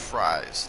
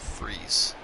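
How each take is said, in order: First: The name is said with an 'eye' vowel. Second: The name is said with an 'ee' vowel. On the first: The speaker calls it right. "It's fries" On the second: The speaker calls it wrong. "not freeze"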